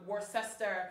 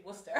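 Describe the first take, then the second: First: "Worcester" said as spelt, WOR-SES-ter; announcer's mispronunciation. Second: "Worcester" shortened to WUSS-ter; correct local pronunciation. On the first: Host imitating the airport announcer's mispronunciation. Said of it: "she just kept announcing". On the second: Host pleading with announcer for the local pronunciation. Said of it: "could you just say". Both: Retold or imitated.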